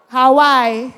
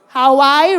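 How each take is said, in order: First: It is said like the island name Hawaii. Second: It is said like the island name Hawaii.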